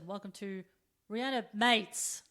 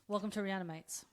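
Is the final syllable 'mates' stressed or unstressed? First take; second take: stressed; unstressed. First: The final syllable 'mates' is stressed. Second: The final syllable 'mates' is not stressed. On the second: It names the podcast as one word.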